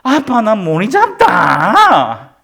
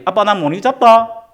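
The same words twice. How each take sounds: First: It is said in an annoyed, whiny tone. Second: It is said calmly, without irritation.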